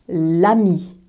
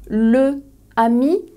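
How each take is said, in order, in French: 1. L'article perd sa voyelle devant ami. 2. L'article garde sa voyelle devant ami. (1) "On va couper la première voyelle"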